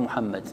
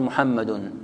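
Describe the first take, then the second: First: "محمد" stopped on a bare d, lower and softer; pausal ending. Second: "محمد" voiced on past the d with its case ending, muhammadun; connected-form ending. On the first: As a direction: end "محمد" on a still d, no vowel. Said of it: "إذا وقفت تقول". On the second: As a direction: carry "محمد" through to an -un ending. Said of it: "إذا وصلت تقول". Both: Shown as a demonstration.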